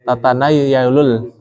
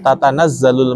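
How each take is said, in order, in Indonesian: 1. Konsonan ganda itu bunyi y. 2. Konsonan ganda itu jelas bunyi z.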